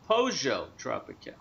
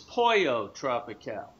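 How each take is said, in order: First: The first word has a J sound in the middle. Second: The first word has an L sound in the middle. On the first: "They pronounce it with a J" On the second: "I always thought it was Pollo Tropical"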